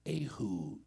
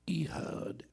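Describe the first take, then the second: First: The name is said with Hebrew pronunciation. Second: The name is said with English pronunciation. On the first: "but it is Ehud in the Hebrew tongue" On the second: "as we would pronounce it in English"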